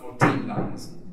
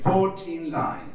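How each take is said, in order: First: The stress is on the last syllable of fourteen. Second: The stress is on the first syllable of fourteen. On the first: The speaker calls it wrong. "not fourteen lines" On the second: The speaker calls it right. "we change the stress. So we say fourteen lines"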